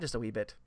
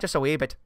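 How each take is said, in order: First: It is said in the speaker's natural accent. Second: It is said in a put-on Irish accent. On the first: "on a daily basis, I use the phrase" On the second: "an atrocious Irish accent"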